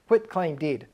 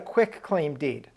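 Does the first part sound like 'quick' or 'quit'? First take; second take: quit; quick. First: The first part sounds like 'quit', ending in t. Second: The first part sounds like 'quick', ending in k. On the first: The speaker calls it right. "It's not quick, it's quit" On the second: The speaker calls it wrong. "You'll hear them say"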